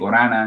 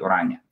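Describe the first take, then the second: First: The name ends in a plain 'na' sound. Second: The name ends in an 'nya' sound. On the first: This is the form used in Canada. "I have to change it in Orana" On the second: This is the original form of the name. "Orania po talaga ang last name ko"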